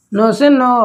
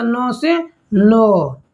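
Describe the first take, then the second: First: नौ से नौ said louder, at normal pace; firm repeat. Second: नौ से नौ stretched very slowly, word by word; slow drill. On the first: Teacher repeating the Tamil Nadu trick louder. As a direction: stamp the mnemonic in with a louder repeat. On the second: Teacher slowly spelling out the Tamil Nadu trick. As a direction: drag out the mnemonic at a crawl. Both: Shown as a demonstration. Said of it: "तो ना से याद रखिएगा".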